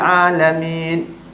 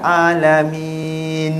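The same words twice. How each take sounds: First: The final n is barely heard at all. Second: The final n has a long nasal hum. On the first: "Sebab kedua tu nun saya tak jelas" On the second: "Pertama tadi saya buat dengung panjang"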